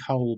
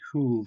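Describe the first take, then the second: First: The name is said like English 'hole'. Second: The name is said like 'hool'. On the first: The speaker calls it wrong. "I'd say Harry Hole, but I don't think it's pronounced like that" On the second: The speaker calls it right. "I think it might be pronounced something like Hool"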